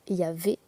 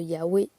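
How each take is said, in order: First: The middle consonant is a V sound. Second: The middle consonant is a W sound. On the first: The speaker calls it wrong. "c'est pas possible" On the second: The speaker calls it right. "se prononce W"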